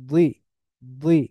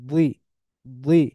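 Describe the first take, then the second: The two takes are said the same way.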